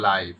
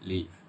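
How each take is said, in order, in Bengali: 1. স্বরধ্বনিটি 'eye'-এর মতো শোনায়। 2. স্বরধ্বনিটি ছোট 'ih'-এর মতো শোনায়। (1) "যখন এটা অ্যাডজেক্টিভ হিসেবে আসবে মানে নাউনের আগে আসবে তখন এটার উচ্চারণ হচ্ছে লাইভ" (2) "যখন এটা ভার্ব হিসেবে আসবে তখন এটা হবে লিভ"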